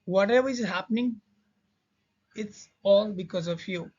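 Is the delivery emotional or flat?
flat. It is said flatly, without emotion. The speaker calls it wrong. "Sorry इसका motion मैं create नहीं कर पा रहा हूँ।"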